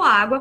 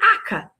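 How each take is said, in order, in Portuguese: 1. A palavra é dita por completo, com todos os sons. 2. A palavra é reduzida a uma forma curta de duas sílabas. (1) "falou água corretamente" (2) "quando a gente pedia para nossa mãe"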